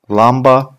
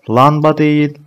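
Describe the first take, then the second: First: "lamba" with a clear m sound; correct form. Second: "Lamba" said as the mistake, louder and higher; wrong form. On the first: Teacher gives the class the right form, clear m. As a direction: say "lamba" with a distinct m. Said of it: "M harfiyle". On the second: Teacher warns the class off the error, raised voice. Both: Shown as a demonstration.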